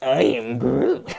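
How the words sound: It is said in a sassy teen Groot voice.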